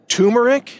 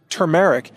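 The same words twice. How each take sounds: First: "turmeric" said TOO-mer-ic, the first r dropped; mock the common mistake: "turmeric" without the r after the u; wrong pronunciation. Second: "turmeric" said TUR-mer-ic, the r after the u sounded clearly; correct pronunciation. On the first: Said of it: "please don't pronounce it". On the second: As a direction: demo the right way: "turmeric" with the first r pronounced. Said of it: "it is pronounced". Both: Shown as a demonstration.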